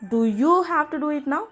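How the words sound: The word you carries the main stress. Is this particular person the one who must do it? "யூவை நம்ம stress பண்ணணும்"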